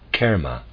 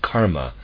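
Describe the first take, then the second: First: The first vowel is a modified vowel sound. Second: The first vowel is a broad ah sound. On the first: The speaker calls it right. "It should be pronounced kerma with modified vowel sound" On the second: The speaker calls it wrong. "people very often say karma with broad ah sound. This is incorrect"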